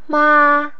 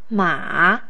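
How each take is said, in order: First: The pitch stays high and level. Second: The pitch dips low and then rises.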